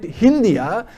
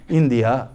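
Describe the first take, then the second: First: The word begins with an h sound. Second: The word begins directly with a vowel. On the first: The name as the West Asians said it. "they called it Hindia" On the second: The simpler form that takes less energy.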